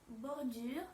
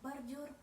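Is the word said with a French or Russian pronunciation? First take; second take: French; Russian. First: It is said with French pronunciation. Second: It is said with Russian pronunciation. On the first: "bordure français" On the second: "mais bordure russe"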